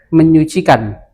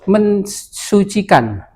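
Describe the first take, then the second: First: The prefix is meny, replacing the s sound. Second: The prefix is men followed by an s sound. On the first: The speaker calls it right. "tapi menyucikan" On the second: The speaker calls it wrong. "nggak nggak kita suci menjadi mensucikan"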